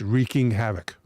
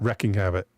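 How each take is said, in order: First: The first word has a long 'ee' vowel. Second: The first word has a short 'eh' vowel. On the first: The speaker calls it right. "It's wreaking havoc" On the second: The speaker calls it wrong. "Not wrecking havoc"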